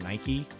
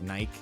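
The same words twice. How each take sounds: First: The name is said the non-British way. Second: The name is said the British way. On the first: "instead of Nike" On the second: "the U K, they call it Nike"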